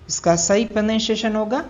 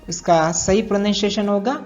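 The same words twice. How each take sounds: The two takes are said the same way.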